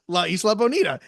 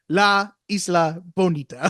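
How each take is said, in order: First: The words flow smoothly together. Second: Each word stops abruptly, with no flow.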